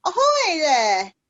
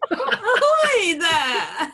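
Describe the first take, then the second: First: Slow, louder cheery call over the side; shouting from crow's nest. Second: Very slow, laughing mock hail; a drawn-out hammed-up ahoy; imitating the call. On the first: Acted. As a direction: hail a ship, drawn out. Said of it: "lean over the side of the boat and go". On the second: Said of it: "I just love that image".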